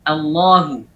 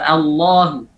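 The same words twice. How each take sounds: First: Allahu with the ha made heavy; thickened ha. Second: Allahu with a heavy, thickened ha; wrong thickened ha. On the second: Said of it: "Allahu pada saat lafzul jalalah ditebalkan". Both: Shown as a demonstration.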